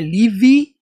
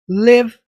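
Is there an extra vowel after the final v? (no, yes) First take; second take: yes; no. First: An extra vowel is added after the final v. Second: The word ends on a soft v, no vowel. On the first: The speaker calls it wrong. "não é live. Não tem esse E aqui do final" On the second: The speaker calls it right. "O V mudo"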